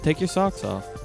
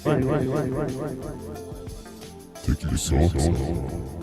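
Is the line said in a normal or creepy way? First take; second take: normal; creepy. First: It is said in a normal, plain way. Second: It is said in a creepy way.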